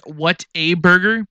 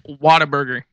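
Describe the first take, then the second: First: The three words are said as separate words. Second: The three words are run together as one.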